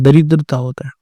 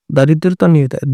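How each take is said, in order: First: दरिद्रता with short first a, da-rid-ra-ta; correct form said. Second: दारिद्रता with long first आ, daa-rid-ra-ta; wrong spelling said. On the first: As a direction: say दरिद्रता with a short opening vowel. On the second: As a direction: say दारिद्रता stretching the first vowel as the wrong form. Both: Shown as a demonstration.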